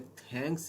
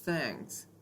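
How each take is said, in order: First: The th is a hard t-like stop. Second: The th is a soft airy hiss. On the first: The speaker calls it wrong. "ये थैंक्स नहीं होता" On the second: The speaker calls it right. "तो ये हम pronounce करते हैं थैंक्स"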